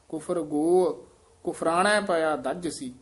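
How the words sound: The pause comes right after 'kufar go'. The phrasing follows the meaning. "ਹੁਣ ਜੇ ਕੁਫਰ ਗੋ ਅਰਥ ਦੇ ਨਾਲ ਇੱਥੇ ਲੱਗ ਜਾਏਗਾ"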